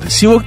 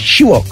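First: The name begins with a plain s sound. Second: The name begins with an sh sound. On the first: The speaker calls it wrong. "Sivok değil ki" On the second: The speaker calls it right.

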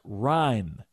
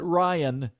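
First: The name is said in one syllable. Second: The name is said in two syllables. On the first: The speaker calls it right. "pronounced Ryan" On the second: The speaker calls it wrong. "not Ryan"

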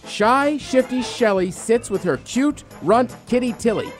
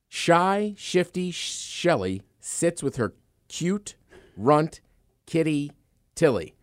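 First: It is said quickly. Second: It is said at a normal pace.

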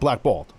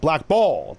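First: The stress is on the first syllable. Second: The stress is on the second syllable. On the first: The speaker calls it right. "instead of" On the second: The speaker calls it wrong. "Why'd you say it like that"

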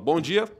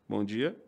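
First: It is said in a confident, lively way. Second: It is said in a timid, subdued way.

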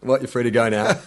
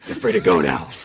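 First: It is said in his normal voice. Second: It is said in a gruff Batman voice.

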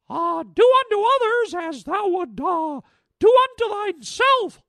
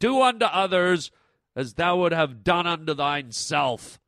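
First: It is said in a Mickey Mouse voice. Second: It is said in a booming, God-like voice.

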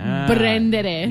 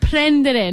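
First: The word begins with a B sound. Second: The word begins with a P sound. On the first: The speaker calls it wrong. "not prendere" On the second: The speaker calls it right. "I said prendere"

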